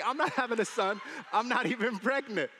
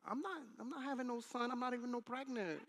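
First: Louder, higher mock protest; imitated wife. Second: High-pitched mock wife voice; exaggerated sassy protest, pitched way up; caricatured wife. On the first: Wife correcting husband about a son, mock protest. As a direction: imitate the wife insisting, loud and raised. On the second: Wife denying she's having a son, hammed-up protest. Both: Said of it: "that's not how she talks".

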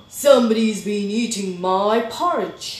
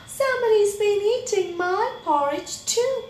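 First: Loud, booming complaint; big, forceful bear outrage; indignant Daddy Bear. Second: High, loud, rising dismay; shocked Mommy Bear. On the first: Daddy Bear discovering his eaten porridge, loudly indignant. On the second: Mommy Bear discovering her eaten porridge, high-pitched shock. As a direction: pitch it way up, aghast. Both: A narrator's reading.

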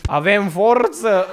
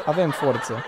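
First: Louder, slow, hammed-up "Avem forță!" with a long drawn "forță"; mock rally cry. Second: Said in the usual way. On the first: Repeating the clip's slogan to viewers as a slow, loud rally cry. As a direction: shout "Avem forță!" like a pumped-up vlogger. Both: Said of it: "Omul meu a zis".

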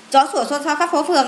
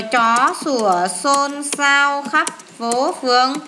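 First: Rattled off in one go; quick recitation. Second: Drawn out word by word; slow recitation. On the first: Teacher recalling the memory phrase for pupils, quick recitation. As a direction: run through the phrase briskly. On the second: Teacher giving pupils a memory phrase, slow recitation. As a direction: recite it slowly, stretching the words. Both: Shown as a demonstration.

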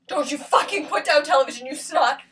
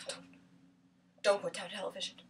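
First: Forceful, indignant scolding; full-voiced, cursing rebuke; angry outburst. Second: Low, very soft warning; hushed, controlled threat; quiet warning. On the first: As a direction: snap back in open anger. Angry outburst after quiet warning. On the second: Acted. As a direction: warn them under your breath. Quiet warning before outburst.

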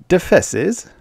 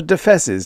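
First: A high rising puzzled echo of Defesses; the artist asking innocently; feigned ignorance. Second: Said in the usual way. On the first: Acted. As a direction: play dumb asking Defesses?. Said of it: "pretending ignorance".

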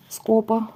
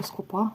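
First: Скопа stressed on the О, СКО-па; stress on first syllable. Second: Скопа stressed on the final А, ско-ПА; tentative, softer скопа with stress moved to the end; stress on last syllable. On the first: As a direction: lean on СКО at the start of Скопа. First guess at the word's stress. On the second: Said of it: "якщо десь неправильно наголос ставлю". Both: Real, not acted.

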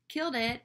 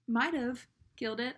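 First: Punchy, assured retold self-praise; confident verdict. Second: Hedging retold self-praise, stress on "Might"; unsure verdict. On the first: Getting off the phone after last time, confident. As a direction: land it firmly, sure of the win. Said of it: "getting off the phone and being like". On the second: Getting off the phone this time, unsure. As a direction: lean on "Might", leaving it in doubt. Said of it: "this time I was like".

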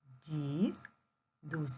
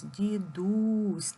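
First: "Дідусь" broken in two with a long gap; slow "Ді... дусь" for counting syllables. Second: "Дідусь" with a long, loud у; joined "дідУУсь", louder and held on у; stress on у. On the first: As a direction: pause between "ді" and "дусь". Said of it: "Поділимо слово на склади". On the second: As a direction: call out "Дідусь", stretching the stressed second syllable. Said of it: "Наголос падає на У". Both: Shown as a demonstration.

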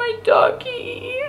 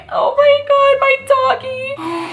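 First: High, slow whiny fake sob; mock wail. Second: High, drawn-out fake crying; mock wail. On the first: Gamer grieving a second virtual dog, mock wail. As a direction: stretch it out like a pouting cry. Mourning her dog again. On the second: Gamer mourning her virtual dog, hammed-up wail. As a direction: ham up a whiny sob over the pet.

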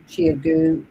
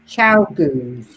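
First: "Chiagu" sounded as CHEE-a-goo; tentative mispronunciation. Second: "Chow Goos" with CHOW as in ciao, then GOOS; corrected pronunciation. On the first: Real, not acted. Co-host reading out a viewer's comment, tentative mispronunciation. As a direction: say "Chiagu" slowly, with a separate "a" in the middle. Guessing at a brand name. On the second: Shown as a demonstration. Co-host offering the brand name, corrected pronunciation. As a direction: say "Chow Goos" as two clear words, CHOW GOOS. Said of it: "I think they're pronounced".

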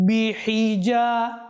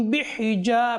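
First: বিহিজা slow, with a clear হা carrying its জের before the জিম; slowly articulated বিহিজা, giving the হি its full vowel; বিহিজা, the careful corrected reading; correct pronunciation. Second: বিহিজা said quickly, with the হা swallowed into the জিম; the common mistaken বিহিজা, rushed, with no clear হা and its জের; বিহিজা as people wrongly say it in prayer; wrong pronunciation. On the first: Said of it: "তাহলে পড়তে হবে কি, কিভাবে?". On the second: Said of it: "বিহিজা বলি". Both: Shown as a demonstration.

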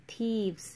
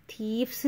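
First: "thieves" with a voiced v before the s; v-sound plural. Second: "thieves" said with a hard f-s ending, "theefs"; wrong plural sound. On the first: Teacher modelling the plural, "thieves" with a clear v. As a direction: say "thieves" as "theevz", f turned to v. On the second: Teacher showing learners the wrong plural, "thieves" with f-s. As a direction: say "thieves" with unvoiced f instead of v. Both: Shown as a demonstration. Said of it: "एफ जो है वो वी में change हो जाता है".

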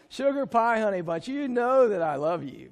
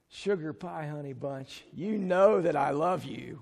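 First: Spoken coaxing line. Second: Said in the usual way. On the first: Shown as a demonstration. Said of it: "Will you say that? Come on, guys". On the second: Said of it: "I want you to lean over to her and say".

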